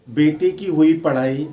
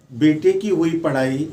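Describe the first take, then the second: No difference in how they are said.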